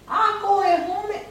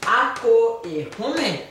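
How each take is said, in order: First: Ako e home said high and quick, all in one go; high and fast. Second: "Ako e home" said slowly, each syllable clear; slow model. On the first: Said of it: "tout le monde qui me dit". («Ako e home» dit vite et aigu) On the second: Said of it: "Oui, très bien". («Ako e home» dit lentement, syllabe par syllabe) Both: Shown as a demonstration.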